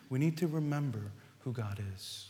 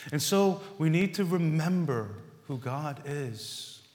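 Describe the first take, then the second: First: Quiet, reflective echo of the refrain; softer repeat. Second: Said in the usual way. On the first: Acted. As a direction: echo the line much softer. Refrain repeated more softly.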